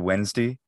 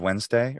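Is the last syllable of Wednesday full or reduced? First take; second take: reduced; full. First: The final syllable is reduced to a weak vowel. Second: The final syllable is a full 'day'. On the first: This is a regional habit of one speaker. "the reduction of day. I remember I had a teacher, he would say Wednesday" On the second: This is the usual way to say it. "instead of Wednesday"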